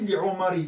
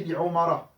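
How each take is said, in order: First: Li Omari with a final i, the wrong form; wrong case ending. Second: Li Omara with a final a, the correct form; right case ending. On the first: Teacher shows the wrong ending, li Omari said with final i. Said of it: "j'aurais pas dit". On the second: Teacher gives the correct form, li Omara with a clear final a. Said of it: "j'aurais dit". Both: Shown as a demonstration.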